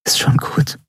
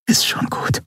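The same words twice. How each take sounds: First: "Ist schon gut" whispered, stress on "schon". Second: "Ist schon gut" barely whispered, stress on "Ist"; softer whisper. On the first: Endriel comforting Keru, tender whisper. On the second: Endriel holding Keru, fainter whisper. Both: A narrator's reading. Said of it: "flüsterte sie".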